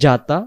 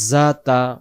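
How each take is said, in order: First: The first consonant is a hard j. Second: The first consonant is a soft buzzing z. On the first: The speaker calls it wrong. "যদি আমি শক্ত করে বলে ফেলি জাতা জিম চলে আসবে" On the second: The speaker calls it right. "উচ্চারণ জাতা"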